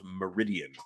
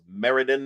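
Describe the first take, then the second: First: The name is said with four syllables. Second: The name is said with three syllables. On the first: The speaker calls it wrong. "and not Meridian" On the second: The speaker calls it right. "I am told it is Meriden"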